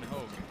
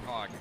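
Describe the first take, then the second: First: The vowel is long, like in 'rogue'. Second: The vowel is short, like in 'hog'. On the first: The speaker calls it right. "it's Loudon Hogue" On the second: The speaker calls it wrong. "and not Hogg"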